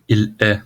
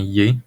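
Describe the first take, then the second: First: It is said as two full separate words. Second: It is fused into one short syllable. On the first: This is the standard written form. "il est devient" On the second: This is the spoken Quebec French form. "devient yé"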